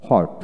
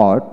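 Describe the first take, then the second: First: হট with an audible h first; হট starting on a breathed h; American h pronunciation. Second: অট with no h at the start; অট opening straight on the rounded sound; British w pronunciation. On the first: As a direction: sound the h in হট. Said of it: "আমেরিকানে হ". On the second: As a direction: drop the h in অট. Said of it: "British উচ্চারণে". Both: Shown as a demonstration.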